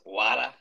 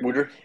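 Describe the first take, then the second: First: It is said in a New York accent. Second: It is said in a Philadelphia accent.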